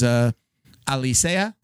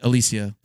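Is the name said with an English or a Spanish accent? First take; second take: Spanish; English. First: The name is said with a Spanish accent. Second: The name is said with an American English accent. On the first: This is the original form of the name. "Puerto Rican last name" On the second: This is an Americanized version of the name. "they Americanized it. The kids say Alicia"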